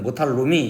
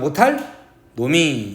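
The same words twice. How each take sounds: First: The words are read fast and run together. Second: The words are kept apart with a break. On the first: The speaker calls it wrong. "빠르게 읽으면 못할 놈 이렇게 되거든" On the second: The speaker calls it right. "그렇게 읽지 말고 못할 놈이 이렇게 읽으라고"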